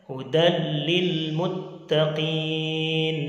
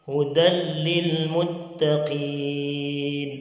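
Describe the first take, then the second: The two takes are said the same way.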